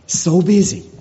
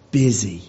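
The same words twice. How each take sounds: First: "so busy" pushed up higher and louder; emphatic so busy. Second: Said in the usual way. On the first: Shown as a demonstration. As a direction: lean hard into "so busy".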